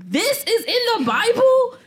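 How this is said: It is said with sassy, incredulous disbelief. The speaker cannot believe it is really there.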